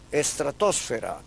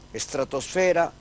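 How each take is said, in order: First: The stress falls on the third-to-last syllable. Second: The stress falls on the second-to-last syllable. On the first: This is the usage in the Americas. "el uso es esdrújulo" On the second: This is the usage in Spain.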